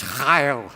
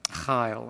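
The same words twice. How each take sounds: First: Chayil said slowly and carefully as haɪl, like a Scottish or Welsh word; Chayil, a throaty H then a long "ile", lowered and deliberate; Hebrew pronunciation. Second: Chayil said quietly as haɪla, a model for them to copy; softer repeat for the congregation. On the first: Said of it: "the Hebrew word is chayil". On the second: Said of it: "could you say it for me". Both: Shown as a demonstration.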